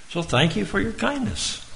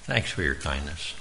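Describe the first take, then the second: First: Much higher, bright mock-sweet thank you; high sing-song thanks. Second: Quiet, lower, gentle thank you; soft sincere thanks. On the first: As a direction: lift it up like a cheerful farewell. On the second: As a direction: say it softly as you leave the door. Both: Shown as a demonstration. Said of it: "We could say".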